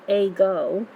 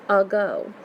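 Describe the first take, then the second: First: The first vowel is a full, clear A. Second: The first vowel is a reduced uh sound. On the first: The speaker calls it wrong. "you don't say a go" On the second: The speaker calls it right. "You actually say ago. So that that letter A is actually almost making the uh sound"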